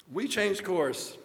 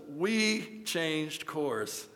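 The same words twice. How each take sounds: First: Said in the usual way. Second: Slow, drawn-out punchline. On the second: A narrator's reading. Preacher delivers the story's last line, very slow. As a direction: stretch every word very slowly.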